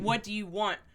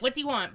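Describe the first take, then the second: First: It is asked in a gentle, kind tone. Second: It is asked in a harsh, demanding tone.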